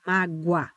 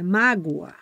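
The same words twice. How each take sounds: First: Mágoa said MA-gwa, o gliding into a; diphthong pronunciation. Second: Mágoa said MA-go-a, o and a as separate vowels; hiatus pronunciation. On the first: Teacher models Mágoa for students, oa as one glide. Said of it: "falam um U seguido de um A". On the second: Teacher models mágoa for students, o and a split. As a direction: split mágoa into three syllables, go then a. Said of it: "É um O seguido de um A". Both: Shown as a demonstration.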